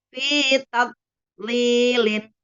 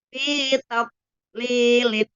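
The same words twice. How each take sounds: Both takes have the same delivery.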